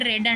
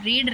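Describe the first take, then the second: First: The vowel is a short e sound. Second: The vowel is a long ee sound. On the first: It is the past tense form. "మనం pronunciation మాత్రం change చేస్తాం" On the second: It is the present tense form. "రీడ్ రెడ్ రెడ్ అంటాం"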